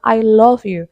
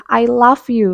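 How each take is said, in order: First: "love" said with a rounded o and a v ending, /lof/; "I love you" said the right way; correct pronunciation. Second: "love" said like "laugh", /laf/; "I love you" mispronounced as laf; wrong pronunciation. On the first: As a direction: say "love" properly, not like "laugh". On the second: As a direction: say "love" with a short a and an f ending, like "laf". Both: Shown as a demonstration. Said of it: "Padahal yang betul adalah".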